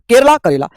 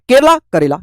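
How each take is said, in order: The two takes are said the same way.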